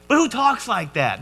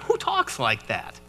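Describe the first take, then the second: First: Higher-pitched baffled question; worked-up, mock-exasperated wonder; incredulous protest. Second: Low, soft, slowed disbelief; quietly dumbfounded question; baffled aside. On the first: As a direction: pitch it up in comic disbelief. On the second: Acted. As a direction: let it drop away in bewilderment. Baffled aside after the odd verse.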